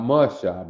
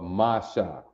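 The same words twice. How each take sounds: First: "Masha" with a reduced first vowel, "muh-SHAH"; mispronounced name. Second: "Masha" with two open vowels, "MAH-SHAH", lower; correct pronunciation. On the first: Officer showing how not to say the name, "muh-shah". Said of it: "Not Masha". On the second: Officer correcting the name, "mah-shah". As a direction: give both syllables of "Masha" a full "ah". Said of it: "Pronounced correctly, it'd be Masha". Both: Shown as a demonstration.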